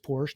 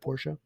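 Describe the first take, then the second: First: The word has one syllable. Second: The word has two syllables. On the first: The speaker calls it right. "It's just Porsche" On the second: The speaker calls it wrong. "not Porsche"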